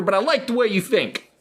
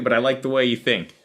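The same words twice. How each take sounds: First: Put-on higher kid voice echoing the teacher; little Johnny mocking. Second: Said in the usual way. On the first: Johnny throwing the teacher's line back, higher. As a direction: parrot the teacher like a smug kid. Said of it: "And he goes". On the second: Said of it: "She said".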